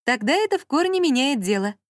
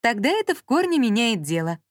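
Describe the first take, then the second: First: Higher mocking repeat. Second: Indifferent, clipped. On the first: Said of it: "раздалось из-за неё". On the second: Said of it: "безразлично отчеканила Анжела". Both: A narrator's reading.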